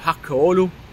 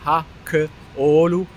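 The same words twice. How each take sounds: First: The name is said at normal speed. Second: The name is said slowly.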